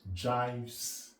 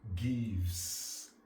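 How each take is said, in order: First: The word begins with a j sound. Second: The word begins with a hard g sound. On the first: This is the jokey classroom maths pronunciation. "In mathematics language, we pronounce it jives" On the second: This is the everyday pronunciation. "in English language is pronounced gives"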